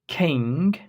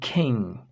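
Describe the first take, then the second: First: It ends with a clearly released hard g sound. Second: It ends in a nasal ng without a released g. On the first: The speaker calls it wrong. "So we do not say king" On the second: The speaker calls it right. "It's between pronouncing the g and not pronouncing the g"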